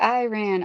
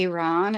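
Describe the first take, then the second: First: Iran is said in a hick-style way. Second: Iran is said in a careful way. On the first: The speaker calls it wrong. "I'm saying Iran like a hic" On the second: The speaker calls it right. "pronounce it right for the first time in my life"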